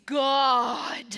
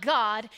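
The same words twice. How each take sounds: First: God stretched slow and loud into three syllables; God drawn out into three ringing syllables; three-syllable preacher God. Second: Said in the usual way. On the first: Shown as a demonstration. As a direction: draw out God like a big preacher, Gaw-ah-d. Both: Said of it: "believe that the word God has three syllables".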